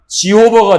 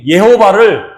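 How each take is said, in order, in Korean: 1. 'jee' 소리로 시작해요, 영어식이에요. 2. 'ye' 소리로 시작해요, 라틴식이에요. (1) "영어로 발음을 하게 되면 지호버가 되고" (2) "라틴어식 발음 표기인 예호바"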